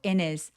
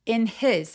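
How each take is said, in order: First: His is reduced and linked to in. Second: His is said clearly and separately. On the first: "뭉개서 in his라고 연음 처리해 주셔도 좋습니다" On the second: "In his 하셔도 되고"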